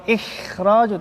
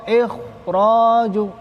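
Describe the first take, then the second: First: Ikhraju with light, thin vowels, ihradju, the mistake; thin wrong reading. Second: Ikhraju slow and heavy, ehrodju with dark rounded vowels; thick correct reading. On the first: Teacher shows students the wrong thin ikhraju, light. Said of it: "Kalau ikhraju tipis". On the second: Teacher gives students the correct heavy ikhraju, slow and thick. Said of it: "Tapi yang benar ikhra". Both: Shown as a demonstration.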